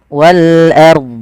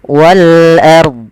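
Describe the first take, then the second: The two takes are said the same way.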